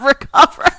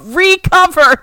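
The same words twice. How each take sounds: First: The first syllable is unstressed and short. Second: The first syllable is stressed and long. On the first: Get better or heal. The speaker calls it wrong. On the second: Cover it again. The speaker calls it right.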